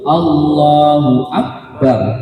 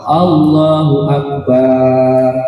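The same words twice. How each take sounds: First: The vowel after b is short. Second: The vowel after b is drawn out. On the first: The speaker calls it right. "Yang betul" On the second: The speaker calls it wrong. "tidak boleh memanjangkan ba pada lafaz akbarnya"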